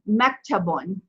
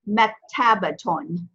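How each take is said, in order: First: The 'ta' syllable is dropped before the ending. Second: The 'ta' syllable is clearly pronounced before the ending. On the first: The speaker calls it wrong. "I heard mektabon" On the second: The speaker calls it right. "this word is mektabaton"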